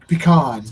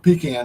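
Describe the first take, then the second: First: It uses the widespread general pronunciation. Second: It uses the local regional pronunciation. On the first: This is how most people say it. "Everybody says pe- pecan" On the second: This is how people say it locally. "we always call it pecan down here"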